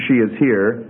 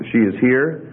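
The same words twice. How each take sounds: First: Said in the usual way. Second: "She is here" as a question, rising on "here"; question intonation. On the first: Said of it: "one A is she". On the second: Shown as a demonstration. Teacher shows the class example B, question intonation rising on "here". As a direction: turn "She is here" into a question by tune alone. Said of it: "In B, you're seeing an intonation pattern".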